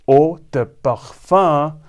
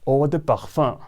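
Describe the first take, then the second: First: The phrase is said slowly. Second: The phrase is said quickly. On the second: "and quickly"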